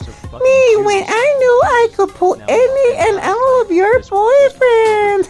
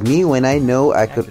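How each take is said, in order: First: It is read in a mocking put-on voice. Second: It is read in his normal voice.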